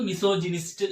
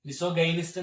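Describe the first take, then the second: First: The middle syllable sounds like 'jih'. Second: The middle syllable sounds like 'guy'. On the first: The speaker calls it right. "എന്നാണ് പറയുന്നത്" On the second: The speaker calls it wrong. "എന്നല്ല നമ്മൾ ഉച്ചരിക്കുമ്പോൾ"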